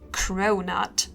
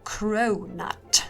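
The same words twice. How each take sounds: First: The word is said in a plain, ordinary way. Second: The word is said in a fancy, affected way. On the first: The speaker calls it wrong. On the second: The speaker calls it right.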